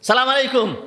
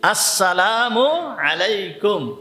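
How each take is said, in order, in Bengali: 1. প্রথম অক্ষরটি বাদ যায়, সংক্ষেপে বলা হয়। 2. প্রতিটি অক্ষর পুরোপুরি ও যত্ন করে বলা হয়। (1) "এইগুলো সুন্নাত অনুযায়ী সালাম হবে না" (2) "সালামটাকে ঠিক সুন্দরভাবে উচ্চারণ করতে হবে"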